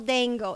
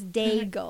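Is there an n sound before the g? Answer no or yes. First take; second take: yes; no. First: An n sound comes before the g. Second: No n sound comes before the g. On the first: The speaker calls it wrong. "There's no N in all Dangle" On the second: The speaker calls it right. "It's like bagel, but Dagle"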